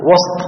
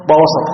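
First: وسط as one syllable, wasT; sukun on the seen. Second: وسط as two syllables, wa-saT; fatha on the seen. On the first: Teacher asking students the difference, unvowelled seen in وسط. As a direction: close وسط on s-T with no vowel between. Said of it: "وإسكان السين". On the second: Teacher contrasting two word forms, opened seen in وسط. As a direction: open the s of وسط with a short a. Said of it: "فتح السين". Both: Shown as a demonstration.

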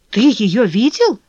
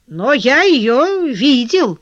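First: Slow question, «видел» rising in disbelief; incredulous question. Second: ЕЁ drawn out, higher, then falling; drawn-out statement. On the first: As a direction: echo it back, questioning «видел». Leon asks back in disbelief. (недоверчивый переспрос с упором на «видел») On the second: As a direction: announce it slowly, leaning on «её». Collar reveals he saw her. (веско, растягивая «её», как утверждение) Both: A narrator's reading.

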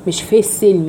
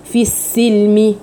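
First: في said with a short lax e, like fe; wrong vowel. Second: في said with a full long ee, slowly; correct long vowel. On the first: Teacher shows her students the wrong vowel in في. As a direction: say في as a clipped fe. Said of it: "في مش في". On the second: Teacher shows her students the full vowel in في, slowly. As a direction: stretch the ee in في. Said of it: "لا في". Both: Shown as a demonstration.

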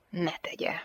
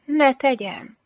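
First: Hushed, firm reply; stern refusal. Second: High-pitched, innocent asking back; playfully raised reply; coy question. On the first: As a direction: forbid it quietly and curtly. Stern man answers her. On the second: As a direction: lift the voice high, as if asking permission. Teasing woman asks back. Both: A narrator's reading.

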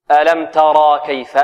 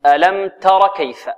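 First: Long aa after the raa in "ترى"; wrong added alif. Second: "تر" with a short final vowel, straight into kaf; alif dropped. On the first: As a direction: draw out the end of "ترى" before the kaf. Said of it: "ولا نقول". ("ترى" بإثبات الألف خطأً) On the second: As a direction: cut the vowel after the raa in "تر" short. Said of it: "هنا تحذف الألف". ("تر" بحذف الألف بعد الراء) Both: Shown as a demonstration.

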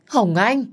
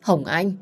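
First: "Hồng Anh" bật cao và to, như vỡ òa; gào gọi "Hồng Anh" khi chạy đến ôm con; gọi to nghẹn ngào. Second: Said in the usual way. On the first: Acted. (gọi "Hồng Anh" cao và to)

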